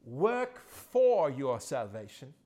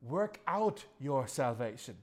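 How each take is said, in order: First: "for" drawn out, louder and slow with a rise; slow, loud "Work for your salvation" with "for" stressed. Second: "out" stressed with a slow falling tune; slow, deliberate "Work out your salvation" landing on "out". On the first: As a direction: lean hard on "for" as the wrong version. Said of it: "It doesn't say". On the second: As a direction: put the weight on "out", not "for". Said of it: "He says". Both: Shown as a demonstration.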